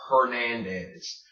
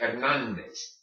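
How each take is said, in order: First: Hernandez with English H and vowels, drawn out; wrong Hernandez. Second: Hernandez in Spanish, H silent; correct Hernandez. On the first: Teacher shows the mistake, slow English-sounding Hernandez. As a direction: pronounce the H in Hernandez, American style. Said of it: "You never pronounce the H". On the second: Teacher shows how to say it, H-less Spanish Hernandez. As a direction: say Hernandez starting straight on the E. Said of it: "that is how you say it". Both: Shown as a demonstration.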